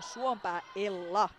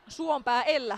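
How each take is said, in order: First: Ella is pronounced with a Finnish-style sound. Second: Ella is pronounced with an English-style sound. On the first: The speaker calls it right. "ihan suomalaisittain näin" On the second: The speaker calls it wrong. "mitäs English ääntämistä"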